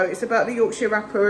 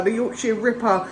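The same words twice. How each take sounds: First: "Rapper" said with an "a" as in rap; slip of the tongue. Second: "Ripper" said with a short "i" as in rip; correcting herself. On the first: Vlogger naming the TV show mispronounces it, "Rapper" with a cat vowel. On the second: Vlogger corrects the show's name, "Ripper" with a short i. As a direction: fix the word: "Ripper" with the vowel of sit. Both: Real, not acted.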